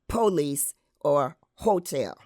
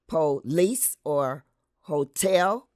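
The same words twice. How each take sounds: First: The words carry the African American stress pattern. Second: The words carry the mainstream American stress pattern. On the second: "In mainstream American English, the stress is put on"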